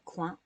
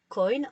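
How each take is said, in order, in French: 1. Le mot est prononcé à la française. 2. Le mot est prononcé à l'anglaise. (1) "qu'on prononcerait coin en français" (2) "Coin en anglais"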